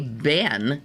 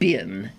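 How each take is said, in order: First: The vowel sounds like the one in bed. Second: The vowel sounds like the one in bit. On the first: The speaker calls it wrong. "That is not a correct pronunciation" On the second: The speaker calls it right. "the proper pronunciation ... in America"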